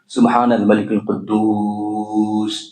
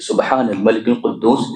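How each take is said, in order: First: It is said slowly, drawn out. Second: It is said at a normal pace.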